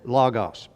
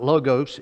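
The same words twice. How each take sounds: First: It is said with a Greek-style pronunciation. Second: It is said with an English pronunciation. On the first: "it was from the Greek, and I think it would be more" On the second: "Usually in the English language we pronounce it"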